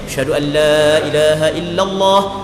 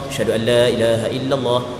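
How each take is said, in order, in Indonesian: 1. Frasa itu diserukan dengan suara keras. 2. Frasa itu diucapkan dengan pelan, hampir tidak terdengar. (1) "kembali melaungkan dengan dengan suara kuat" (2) "dengan suara cukup perlahan yang hanya didengar oleh dirinya sendiri"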